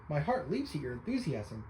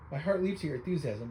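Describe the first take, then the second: First: Words stretched by a yawn. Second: Lightly voiced eager scholar, no yawn; eccentric scholar. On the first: Real, not acted. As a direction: say it mid-yawn, drowsy. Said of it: "I'm just yawning today". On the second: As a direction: clean retake in the scholar voice. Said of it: "But anyway".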